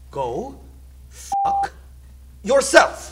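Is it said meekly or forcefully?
forcefully. It is said forcefully, each word clipped.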